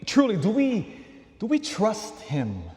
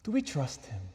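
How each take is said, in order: First: "do we trust Him" pitched high, slowing as it lands; insistent questioning. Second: Softer "Do we trust Him", falling at the end; quiet questioning. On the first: Preacher challenges the congregation's trust, insistent and high. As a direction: press "truly, do we, do we trust Him" with raised pitch. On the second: Preacher leaves the question with the congregation, quiet and falling. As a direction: let the question drop softly after a pause. Same question repeated after a pause. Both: Real, not acted.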